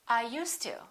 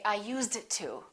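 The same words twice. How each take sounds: First: The D and T blend into one sound. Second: The D and T are pronounced separately. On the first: The speaker calls it right. "They say, ... it really doesn't sound like a D ever" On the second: The speaker calls it wrong. "they never say"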